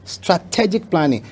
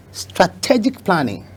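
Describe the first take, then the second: No difference in how they are said.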